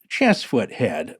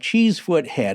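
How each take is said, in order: First: The first vowel is a short E. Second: The first vowel is a long E. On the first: The speaker calls it right. "actually pronounced Chessfoot Head by true locals" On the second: The speaker calls it wrong. "the first time I said that incorrectly"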